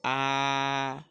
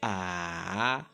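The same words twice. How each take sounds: First: It is said with the first tone. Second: It is said with the third tone. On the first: "Le premier temps se prononce de façon simple" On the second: "c'est comme si vous descendez un peu, puis vous remontez"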